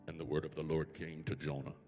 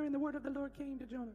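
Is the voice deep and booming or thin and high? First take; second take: deep; high. First: It is said in a deep, booming God voice. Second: It is said in a thin, higher voice.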